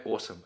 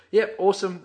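First: Said in the usual way. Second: Higher and louder, a bright mock "Yep, awesome"; imitating an upbeat reply. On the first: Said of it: "And I go". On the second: Co-host imitates partner's upbeat reply, higher and louder. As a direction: play the eager mate answering with a punchy "Yep, awesome". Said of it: "You go".

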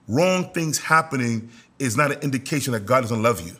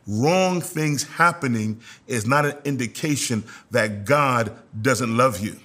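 First: Said in the usual way. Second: Slower, measured emphasis from "Wrong" through "love you"; deliberate repeat. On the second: Real, not acted. Preacher repeats a key point to the congregation, slow and deliberate. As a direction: spell it out slowly, phrase by phrase. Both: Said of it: "I'm gonna say that again".

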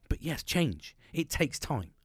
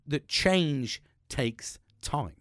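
First: Said in the usual way. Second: That change takes time drawn out very slowly, each word weighted; the key lesson, laid down slowly and deliberately; slow emphatic point. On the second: Shown as a demonstration. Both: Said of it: "a little emphasis point there".

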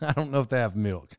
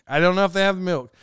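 First: Said through a laugh, softer. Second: Said in the usual way. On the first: Real, not acted. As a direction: chuckle the words out. Laughs repeating friend's words.

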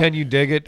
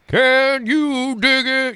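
First: Said in the usual way. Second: Slow, high, drawn-out jive line; 1940s jive talker. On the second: Shown as a demonstration. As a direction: stretch it out like a cool street leader. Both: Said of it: "you just would nail that guy's voice".

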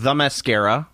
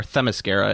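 First: Mascara said like the makeup, MASS-ka-ra; Mascara, stress on MASS, like the cosmetic; mock wrong pronunciation. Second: Themyscira said properly, them-ih-SKEER-uh; Themyscira, stress on SKEER; correct pronunciation. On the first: Podcast host jokingly mangling the island name, mock mispronunciation. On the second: Host correcting himself to the proper island name, proper pronunciation. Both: Shown as a demonstration. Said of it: "as it's actually pronounced".

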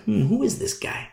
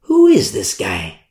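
First: High, soft, puzzled rise; suspicious wonder. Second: Low, slow, doubtful mutter; low suspicious. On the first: Leaders eyeing Paul, softly suspicious. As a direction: quietly wonder who he is. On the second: Leaders eyeing Paul, low and slow distrust. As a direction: lower the voice in distrust. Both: Acted. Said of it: "religious leaders like".

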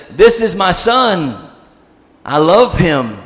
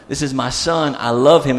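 First: Slow, raised proclamation; booming voice. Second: Said in the usual way. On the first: Retold or imitated. God speaking out of the cloud with joy, booming. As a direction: declare it grandly and slowly, with mild boom. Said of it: "maybe it's a booming voice". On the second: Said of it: "That's what it means".

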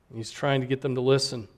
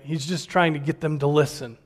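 First: "trying" said softer and quicker, dropping away; softer, faster restatement. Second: Said in the usual way. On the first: Shown as a demonstration. Preacher repeating his point to the congregation, softer and faster. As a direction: murmur it quickly as an aside. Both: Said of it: "restated line".

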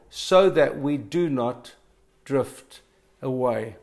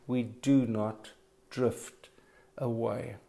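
First: Slow, stressed drift away; slow emphasis. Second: Slow, quiet, drawn-out drift away; punchline slowly. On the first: Preacher repeating the key line to the congregation, slow and deliberate. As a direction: lean into drift and away, spaced out. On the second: Preacher landing the sermon's punchline, slow and soft. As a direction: let drift and away land slowly and softly. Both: Shown as a demonstration. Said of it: "here comes the punchline".

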